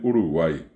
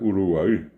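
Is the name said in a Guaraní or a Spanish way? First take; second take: Spanish; Guaraní. First: Said with ordinary Spanish sounds. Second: Said with the original Guaraní sounds.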